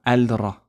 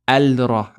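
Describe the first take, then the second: First: The l is heard before the r. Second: The same.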